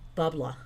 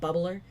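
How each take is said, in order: First: The word ends in a drawn-out ah sound. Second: The word ends with a clear r sound. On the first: "It's like a slurred, long, countrified New York accent" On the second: "Now I'm saying it correctly"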